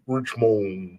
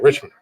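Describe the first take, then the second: First: Each syllable is pronounced clearly and fully. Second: The syllables are run together and reduced. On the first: "I'm trying to properly enunciate" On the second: "we just say Richmond"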